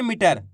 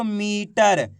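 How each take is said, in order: First: "मीटर" said quickly with a short इ; short clipped vowel. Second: "मीटर" with a long, stretched ई; drawn-out vowel. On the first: Teacher shows how not to read it, "मीटर" with unstretched vowel. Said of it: "ऐसे नहीं पढ़ेंगे". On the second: Teacher shows pupils the long matra, "मीटर" stretched out. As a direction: hold the ई in "मीटर" before finishing the word. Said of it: "खींच के पढ़ेंगे इसको". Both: Shown as a demonstration.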